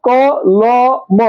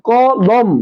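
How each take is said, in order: First: ক, ল, ম as three separate beats; letter by letter. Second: ক, লম in two beats, ল and ম joined; syllable by syllable. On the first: Teacher showing how the word is spelled, three separate sounds. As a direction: break it into ক, pause, ল, pause, ম. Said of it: "যখন আমি উচ্চারণ করি". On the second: Teacher counting breath pushes in kolom, two syllables. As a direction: say ক, then লম as one closed syllable. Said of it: "যখন আমরা উচ্চারণ করি". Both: Shown as a demonstration.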